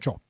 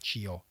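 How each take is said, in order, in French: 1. Ça sonne comme 'tcho', sans voyelle 'ee'. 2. Une voyelle 'ee' est entendue avant le 'o'. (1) "on n'entend pas le i" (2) "pas cio"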